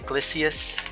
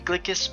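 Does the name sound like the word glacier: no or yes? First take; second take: yes; no. First: The name is said like glacier. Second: The name is not said like glacier. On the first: The speaker calls it right. "It just sounds better, like Glacier" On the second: The speaker calls it wrong. "it doesn't sound as right. It doesn't flow off the tongue"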